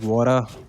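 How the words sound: It is said in an American accent.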